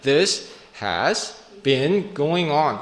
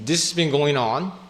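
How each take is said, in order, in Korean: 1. 단어가 더 느리고 각각 또렷하게 말해집니다. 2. 단어가 빠르고 붙어서 들립니다. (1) "되게 중요하게 생각한다면은 this has been going on 이렇게 얘기했을 텐데" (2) "이거 얘기하지 않아도 사람들이 이해할 수 있기 때문에 말이 빠르게 가는 거거든요"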